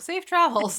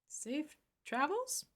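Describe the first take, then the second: First: The pitch falls at the end, like a statement. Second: The pitch rises at the end, like a question. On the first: It is a plain wish, not a question. The speaker calls it right. "not a question mark" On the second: It sounds like a question. The speaker calls it wrong. "I made that sound like a question"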